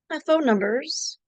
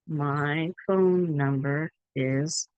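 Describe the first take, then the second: First: The words are run together and linked. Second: Each word is said clearly and separately. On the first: "but understand" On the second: "say nice and clear"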